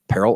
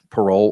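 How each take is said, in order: First: The word sounds like 'peril'. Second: The word sounds like 'parole'. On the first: "some lawyers would pronounce it peril" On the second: "what we call parole"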